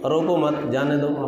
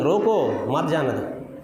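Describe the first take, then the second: First: The pause comes after 'mat', meaning don't stop. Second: The pause comes after 'roko', meaning stop him.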